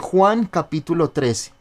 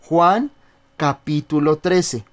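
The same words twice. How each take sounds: First: The reference is said quickly. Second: The reference is said slowly. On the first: "usted dice muy rápido las, las citas" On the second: "se las digo un poco más despacio"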